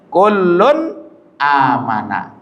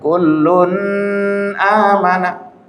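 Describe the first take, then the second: First: The n sound is pronounced clearly and distinctly. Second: The n sound is not pronounced clearly. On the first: The speaker calls it right. "an-nya jelas" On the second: The speaker calls it wrong. "Tidak boleh kau bilang"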